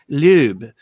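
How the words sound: The name is pronounced the German way.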